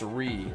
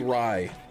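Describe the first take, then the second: First: The syllable has the vowel of 'ree'. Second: The syllable has the vowel of 'rye'. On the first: This is the correct pronunciation. The speaker calls it right. "I think it's Ri" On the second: This is how the speaker habitually says it. The speaker calls it wrong. "but I say Rai"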